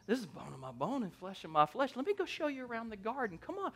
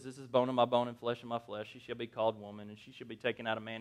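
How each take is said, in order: First: Soft, eager aside rising in pitch; hushed, playful courting; smitten Adam. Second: Low, quiet, rushed recitation; boring read. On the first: Acted. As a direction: sweet-talk her quietly, quickening. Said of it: "you gotta picture this in your mind". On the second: Shown as a demonstration. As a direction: rattle it off dully, dropping low. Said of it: "it sounds kind of boring".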